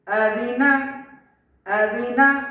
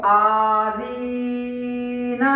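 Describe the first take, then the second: First: آذینا said compactly, without dragging; correct short vowels. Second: آذینا dragged out slowly, every vowel overlong; wrong majhul stretch. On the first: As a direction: keep the first and last vowels of آذینا short. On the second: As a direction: chant آذینا with long held vowels. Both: Shown as a demonstration. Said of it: "اس کو ایسا نہیں پڑھنا۔".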